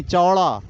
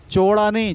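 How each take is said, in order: First: चौड़ा said as "chau-ra" with an open "au"; the proper चौड़ा, opening the vowel wide; correct pronunciation. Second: चौड़ा said as "cho-ra", higher and louder; the mistaken चौड़ा with a closed "o"; wrong pronunciation. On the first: Teacher to class, giving the right चौड़ा. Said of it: "चौड़ा नहीं, चौड़ा". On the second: Teacher to class, showing the wrong चौड़ा. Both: Shown as a demonstration.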